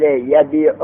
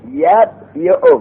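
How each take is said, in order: First: Said in the usual way. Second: یبیع higher and slow, as yab-yi-u; uncontracted original form. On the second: Shown as a demonstration. Teacher restating the root form, یبیع slow and high as yab-yi-u. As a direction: stretch یبیع apart into yab, yi-u. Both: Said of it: "پس اصل یبیع".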